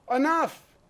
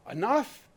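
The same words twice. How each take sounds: First: Louder, higher closing "Enough." as a firm shout; voicing the people's final demand. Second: Said in the usual way. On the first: The people telling lawmakers they are done, shouted firmly. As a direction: slam the door on it with "Enough.". People fed up after Sandy Hook.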